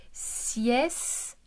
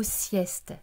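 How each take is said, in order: First: "sieste" stretched, with a gap before the final te; split into syllables. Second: Said in the usual way. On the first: Shown as a demonstration. Teacher showing where the sound sits, "sieste" syllable by syllable. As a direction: sound out "sieste" as siès, pause, te. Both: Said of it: "au milieu de la syllabe".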